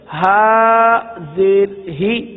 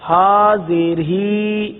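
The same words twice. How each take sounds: First: The final vowel is kept short. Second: The final vowel is stretched out long. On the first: The speaker calls it right. "इसको पढ़ेंगे" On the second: The speaker calls it wrong. "इस तरह पढ़ने से हरकत को खींचना ... ये हिज्जे गलत है"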